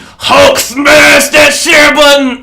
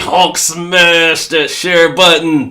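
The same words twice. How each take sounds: First: It is said with much higher energy. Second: It is said with somewhat lower energy.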